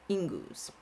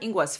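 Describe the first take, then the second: First: No w sound follows the ng. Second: A w sound follows the ng. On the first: The speaker calls it right. "I've also heard it pronounced as Ingus" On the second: The speaker calls it wrong. "I heard Ingwas first"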